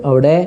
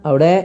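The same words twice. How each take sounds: The two takes are said the same way.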